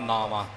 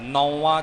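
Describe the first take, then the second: First: The first vowel is 'aa', as in naavan. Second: The first vowel is 'au', as in nauvan. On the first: The speaker calls it right. "ਇਸੇ ਤਰ੍ਹਾਂ ਹੀ ਇਸ ਦਾ ਉਚਾਰਨ ਕਰਨਾ ਹੈ" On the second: The speaker calls it wrong. "ਨੌਵਾਂ ਜਾਂ ਹੋਰ ਕਿਸੇ ਤਰੀਕੇ ਨਾਲ ਨਹੀਂ"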